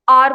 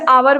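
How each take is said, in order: First: The word is said with one syllable. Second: The word is said with two syllables. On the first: The speaker calls it right. "आर बोलते हैं" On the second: The speaker calls it wrong. "वैसे आवर भी नहीं पढ़ते"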